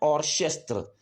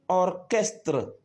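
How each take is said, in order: First: The ch is said as a sh sound. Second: The ch is said as a k sound. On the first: The speaker calls it wrong. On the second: The speaker calls it right.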